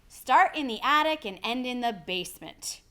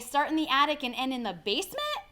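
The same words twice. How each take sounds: First: The voice falls at the end. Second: The voice rises at the end.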